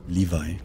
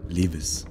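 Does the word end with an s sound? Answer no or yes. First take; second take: no; yes. First: The word ends without an s sound. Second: The word ends with an s sound. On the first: The speaker calls it right. "das heißt Levi" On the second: The speaker calls it wrong. "Ich habe immer Levis gesagt"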